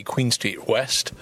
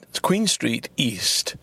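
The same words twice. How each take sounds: First: Queen Street West slow, rising on West; slow, deliberate correction with a lift; careful street name. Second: Queen Street East said slowly and deliberately; slow, deliberate street name; careful street name. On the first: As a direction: correct the address, leaning on West. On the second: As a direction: spell out the address, leaning on East. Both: Shown as a demonstration. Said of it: "now, there was a mistake".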